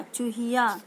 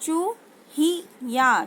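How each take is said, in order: First: Said in the usual way. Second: चूहिया drawn out slowly, falling; slow syllable-by-syllable reading. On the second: Shown as a demonstration. Teacher answers her own question, slowly sounding out चूहिया. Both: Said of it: "तो वो क्या हो जाएगा".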